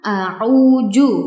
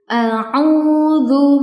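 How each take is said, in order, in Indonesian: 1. Konsonan terakhir adalah bunyi j. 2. Konsonan terakhir adalah bunyi dh yang lembut. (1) "bukan a'uju" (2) "cara bacanya seperti ini"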